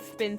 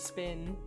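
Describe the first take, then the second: First: The s is lisped, like a th sound. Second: The s is a clear, normal s sound. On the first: A character with a lisp says it. "Duck Shuffler talks with a lisp. He says spin" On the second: It is the ordinary way of saying it. "instead of spin"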